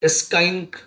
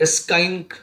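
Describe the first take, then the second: First: A k sound follows the opening s. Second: A k sound follows the opening s.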